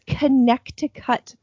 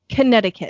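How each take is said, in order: First: Every written letter, including the middle 'c', is sounded. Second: Some letters are dropped, with the middle 'c' silent. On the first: This is how the word looks when written. The speaker calls it wrong. "if you look at the word, it's Connecticut, but they don't say that" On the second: This is how people actually say the name. The speaker calls it right. "They say Connecticut. It's like they miss a bunch of fucking letters"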